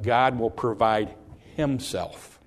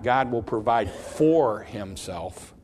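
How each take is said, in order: First: "himself" set apart after a short pause; stress on "himself". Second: Slow reading with "for" punched and stretched; stress on "for". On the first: Preacher showing the verse's true wording, "himself" set apart by a pause. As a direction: pause after "provide", then give "himself" on its own. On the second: Preacher showing what the verse does not say, "for" heavily stressed. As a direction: lean hard on the word "for". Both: Shown as a demonstration. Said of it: "Notice the words".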